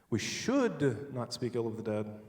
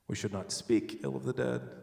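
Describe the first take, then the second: First: The word 'should' is stressed. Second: The word 'speak' is stressed. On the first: It is wrong, but it will be done anyway. "but we're going to anyway" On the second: Bad thoughts about them are allowed. "We can think it"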